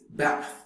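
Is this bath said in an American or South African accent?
American. An American accent, with a shorter vowel. "in American English is bath"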